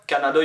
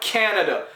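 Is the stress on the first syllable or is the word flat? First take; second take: flat; first syllable. First: All syllables are said flat, with no stress. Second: The stress is on the first syllable. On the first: The speaker calls it wrong. "in French, we don't stress syllables. Words are just flat" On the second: The speaker calls it right. "Emphasis, stress on the first syllable"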